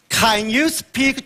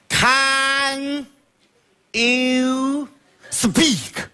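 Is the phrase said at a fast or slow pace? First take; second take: fast; slow. First: It is said at a normal pace. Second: It is said very slowly.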